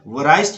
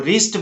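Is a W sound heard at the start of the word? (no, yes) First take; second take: yes; no. First: The word begins with a W sound. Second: The word begins directly with an R sound. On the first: The speaker calls it wrong. "इसको वराइस्ट नहीं बोलना है" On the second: The speaker calls it right. "इसको रिस्ट बोलना है"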